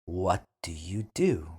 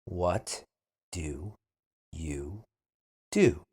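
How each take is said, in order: First: Said in the usual way. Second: What do you do? split into single words. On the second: Shown as a demonstration. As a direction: say What do you do? one word at a time. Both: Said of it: "then repeat slowly".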